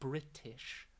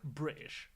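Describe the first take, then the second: First: The T sound in the middle is clearly pronounced. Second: The T sound in the middle is dropped. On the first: "not British" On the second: "so I'll drop the T's"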